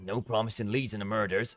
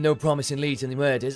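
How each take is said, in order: First: It is spoken in a West Country accent. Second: It is spoken in a Yorkshire accent. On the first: The speaker calls it wrong. "that's again West Country, isn't it?" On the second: The speaker calls it right.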